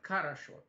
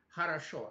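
First: The word begins with a hard k sound. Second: The word begins with a breathy h-like sound. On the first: "Они говорят «карашо»" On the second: "Они же не скажут «хорошо»"

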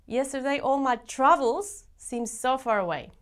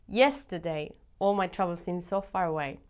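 First: The word 'my' is stressed. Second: The word 'yesterday' is stressed.

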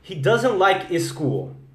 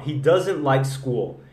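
First: An extra e vowel comes before school. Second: School begins directly with the s sound. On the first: The speaker sounds like a non-native speaker. The speaker calls it wrong. "E só vou mudar um E aqui" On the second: The speaker sounds like a native speaker. The speaker calls it right. "Provavelmente as pessoas vão falar que sim. É americano, é pronúncia nativa"

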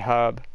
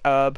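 First: The word begins with a pronounced h sound. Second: The word begins without an h sound. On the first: This is the British way of saying it. "where we say herb" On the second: This is the American way of saying it. "Americans always say herb"

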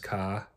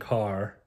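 First: The final R sound is dropped. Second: The final R sound is pronounced. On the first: It is the local Maine way of speaking. "usually you drop R's on main words like car. Up Maine is ka" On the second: The local Maine accent has faded. "I started saying car"

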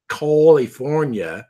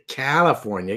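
First: The first syllable sounds like the word 'call'. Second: The first syllable sounds like the vowel in 'cat'. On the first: A single letter should not be read like in 'call'. The speaker calls it wrong. "I don't say California" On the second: A single letter is read the ordinary way. The speaker calls it right. "I say California. It's got one L"

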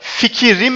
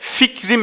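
First: The middle vowel i is pronounced. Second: The middle vowel i is dropped. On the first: The speaker calls it wrong. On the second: The speaker calls it right.

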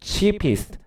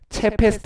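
First: The first vowel is long, like 'ee'. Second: The first vowel is short, like 'e'. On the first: The speaker calls it right. "긴 모음이에요. 긴 모음. 장모음이라고 그래요" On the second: The speaker calls it wrong. "EA 체페스트 아니야"

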